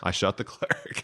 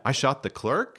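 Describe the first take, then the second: First: "I shot the clerk." with "clerk" ending flat and final; falling statement. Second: "I shot the clerk?" rising at the end on "clerk"; questioning tune. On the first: Showing how the sheriff heard it, "clerk" falling. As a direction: land "clerk" down like a period. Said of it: "hearing it as a period at the end". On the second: Explaining the movie scene, with a rising "clerk". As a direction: end "clerk" with a light upward lift, like a question. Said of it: "tiny little question mark at the end". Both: Shown as a demonstration.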